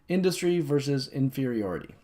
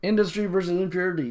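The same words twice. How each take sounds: First: It is said more slowly. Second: It is said very fast.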